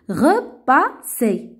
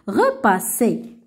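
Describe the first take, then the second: First: The word is read slowly. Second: The word is read faster.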